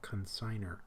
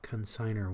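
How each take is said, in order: First: The stress is on the last syllable. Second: The stress is on the middle syllable. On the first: The speaker calls it wrong. "I always want to say consignor or something" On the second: The speaker calls it right. "you want to put it on the penultimate syllable"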